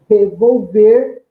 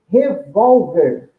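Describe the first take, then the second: First: The stress is on the last syllable. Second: The stress is on the second-to-last syllable. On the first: It is the verb meaning to stir or turn over. "a sílaba tônica é a última" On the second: It is the noun meaning a handgun. "a sílaba tônica de revólver é a penúltima"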